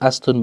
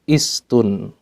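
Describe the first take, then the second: First: The word begins with an a vowel. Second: The word begins with an i vowel. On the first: The speaker calls it wrong. "bukan astun" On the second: The speaker calls it right. "yang pertama kalimat istun ya"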